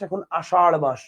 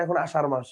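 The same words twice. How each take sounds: First: আষাঢ় stressed, tongue curled back on the final ঢ়; retroflex ṛh ending. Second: আষাঢ় said as আষার, with a simple r; front-tongue r closing আষাঢ়, no retroflex flap; ordinary r ending. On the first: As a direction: flap the end of আষাঢ় from the roof of the mouth. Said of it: "এই যে এটা". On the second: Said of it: "এখানে আপনি যদি উচ্চারণ করেন". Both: Shown as a demonstration.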